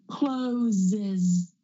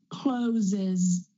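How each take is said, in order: No difference in how they are said.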